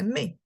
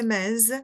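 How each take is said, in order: First: The final s is silent. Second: The final s is pronounced. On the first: The speaker calls it right. "we say me" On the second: The speaker calls it wrong. "we know we're not going to say mes"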